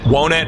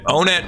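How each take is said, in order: First: The name starts like the word 'one'. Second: The name starts like the word 'own'. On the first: The speaker calls it right. "I think it's supposed to be Wonet because it's like one" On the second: The speaker calls it wrong. "I always flip-flop the pronunciation of it"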